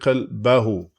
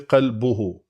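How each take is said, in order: First: The vowel before the final syllable is a. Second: The vowel before the final syllable is u. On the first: The noun is in the accusative case. "in the case of منصوب, it's going to be" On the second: The noun is in the nominative case. "in the case of it being مرفوع, its pronunciation is going to be"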